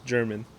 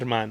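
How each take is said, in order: First: The name is said with English pronunciation. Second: The name is said with Spanish pronunciation. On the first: The speaker goes along with others' mispronunciation. The speaker calls it wrong. "Everyone was mispronouncing it" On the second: The speaker owns their real name. The speaker calls it right. "Like say it right"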